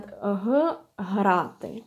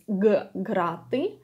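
First: Грати said "hraty" with a voiced h; soft voiced h. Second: Грати said "graty" with a firm g; hard g. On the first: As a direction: slowly isolate a voiced huh, then грати as "hraty". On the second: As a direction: isolate a hard guh, then грати as "graty". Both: Shown as a demonstration. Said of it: "how you pronounce the letter".

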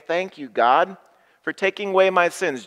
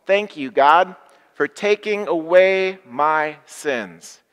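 First: A higher, faster "Thank you, God" to show the words; cheerful leading line. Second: Louder and slow, every word of "for taking away my sins" drawn out; loud unison thanks. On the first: Shown as a demonstration. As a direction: lead the thanks briskly and brightly. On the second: Acted. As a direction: lead the whole room in a big slow thanks. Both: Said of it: "Join me here and at home".

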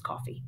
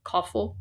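First: Said in the usual way. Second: "Coffee" said as "coffle", ending in an L; odd pronunciation. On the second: Real, not acted. Reader puzzling over "Coffee", said "coffle" with final L. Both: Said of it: "I think he means coffee".

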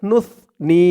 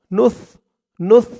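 First: নুসনি said in full; correct form. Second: নুস cut short as a wrong example; wrong clipped নুস; wrong form. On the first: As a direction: say the full নুসনি, not নুস. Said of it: "বলতে হবে নুসনি". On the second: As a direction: say নুস alone to show the mistake. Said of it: "নুস হবে না". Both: Shown as a demonstration.

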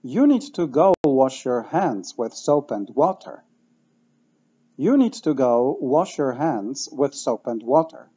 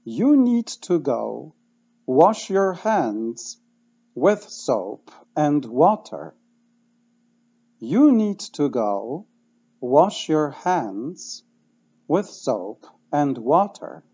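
First: Natural fluent speed; now say it quickly, all in one flow; fast repeat-after-me drill; faster. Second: Very slow, word by word; slow repeat-after-me drill. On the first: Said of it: "dwa razy szybciej". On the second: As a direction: drill it slowly for the class. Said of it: "dwa razy wolno". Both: Shown as a demonstration.

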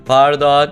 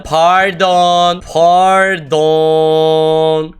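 First: Said in the usual way. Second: Long, stretched "Pardon"; drawn-out pardon. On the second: Pretend. Player apologising for the mistake, exaggerated drawn-out "Pardon". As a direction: drag out both syllables of "Pardon". Repeats it, dragged out.

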